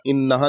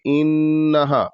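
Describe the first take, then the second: First: The nasal n sound is cut short quickly. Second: The nasal n sound is held long. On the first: The speaker calls it wrong. "जल्दी से नहीं पढ़ देना, इन्नहा नहीं पढ़ना है" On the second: The speaker calls it right. "थोड़ा-सा खींच के एक हर्फ से दो हर्फ के बराबर खींच के नाक में"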